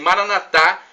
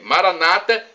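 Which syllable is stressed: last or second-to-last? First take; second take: last; second-to-last. First: The stress is on the last syllable. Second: The stress is on the second-to-last syllable. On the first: This is how Catholics say it. "como dizemos nós católicos" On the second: This is how Protestants say it. "como dizem os nossos irmãos evangélicos ou protestantes"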